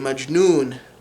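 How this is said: The word is said with a J sound. This is the Modern Standard Arabic form. "You would say majnoon for crazy"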